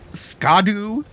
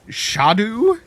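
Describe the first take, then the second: First: The word begins with an sk sound. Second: The word begins with an sh sound.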